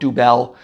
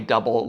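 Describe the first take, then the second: First: It does not sound like English 'double'. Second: It sounds like the English word 'double'. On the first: The speaker calls it wrong. "some people want to call it Dubel" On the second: The speaker calls it right. "it's pronounced that way"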